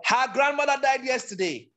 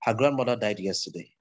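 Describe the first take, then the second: First: Very high, held-up pitch; demonstrating the top of the pitch range. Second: Low, everyday speaking pitch; demonstrating low pitch, no lift. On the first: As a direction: pitch the whole sentence way up high. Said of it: "obviously that's high pitch". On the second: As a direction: keep the sentence down in your low range. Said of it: "Low pitch". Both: Shown as a demonstration.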